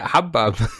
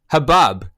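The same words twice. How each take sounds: First: The stress is on the first syllable. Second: The stress is on the second syllable. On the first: "That's just how I've, I've always said it" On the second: "You put the emphasis there. It's like shalom or something"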